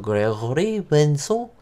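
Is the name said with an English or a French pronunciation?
French. The name is said with French sounds. The speaker calls it right. "I believe it's French, so"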